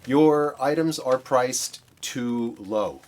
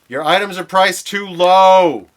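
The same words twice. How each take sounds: First: It is said at normal volume. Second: It is said loudly.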